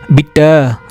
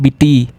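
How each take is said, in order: First: The final vowel sounds like 'ay'. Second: The final vowel sounds like 'ee'. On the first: The speaker calls it right. "So we will not call E as E. We will call it as A" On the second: The speaker calls it wrong. "not bitty"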